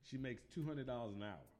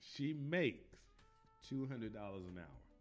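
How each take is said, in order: First: It is said at normal speed. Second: It is said slowly.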